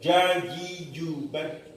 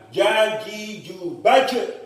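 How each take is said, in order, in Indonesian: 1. Pantulan terakhirnya hilang sama sekali. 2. Pantulan terakhirnya terlalu kuat dan panjang. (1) "Pantulannya hilang karena terlalu apa namanya terlalu hati-hati" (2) "Itu terlalu berlebihan"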